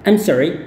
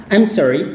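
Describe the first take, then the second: No difference in how they are said.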